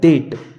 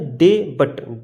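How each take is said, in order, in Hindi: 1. b की आवाज़ पूरी तरह छोड़ दी जाती है। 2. b की आवाज़ t से पहले बोली जाती है। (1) "ये लिखा है डेट" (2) "क्या ये डे बट, डे बट ना है"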